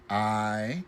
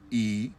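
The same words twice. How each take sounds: First: The vowel glides from one sound into another. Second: The vowel is one steady, unchanging sound. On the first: This is how English speakers say it. "they actually have two sounds" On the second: This is how Spanish or Vietnamese speakers say it. "the I is one sound"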